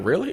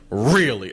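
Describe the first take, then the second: First: Short, rising "really?"; quick questioning lift on "really"; ordinary surprised question. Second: Drawn-out "really" with a falling end; incredulous "really", landing downward; flat-out disbelief. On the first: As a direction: ask "really?" lightly, pitch going up at the end. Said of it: "that's not a real, like, really?". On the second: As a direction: say "really" as if it's just plain wrong. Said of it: "I don't believe you. This is wrong". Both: Shown as a demonstration.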